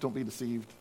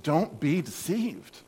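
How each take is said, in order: First: It is said gently, like a mild suggestion. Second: It is said strongly, like an urgent shout. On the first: It is only a subtle suggestion. The speaker calls it wrong. "This is not a subtle suggestion" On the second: It is an urgent warning. The speaker calls it right. "a strong wake-up call"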